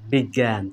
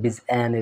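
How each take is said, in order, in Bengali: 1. মাঝের ব্যঞ্জনটি একটি শক্ত g-এর মতো শোনায়। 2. মাঝের ব্যঞ্জনটি j-এর মতো শোনায়। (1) "এখানে কিসের সাউন্ড পাচ্ছি গ্যা" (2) "বলতেছি না"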